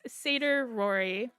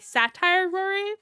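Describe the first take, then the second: First: The first word sounds like 'seder'. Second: The first word sounds like 'satire'. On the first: The speaker calls it right. "I try and remember that it's Seder Rory" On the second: The speaker calls it wrong. "I always say Satire Rory, and I've been corrected"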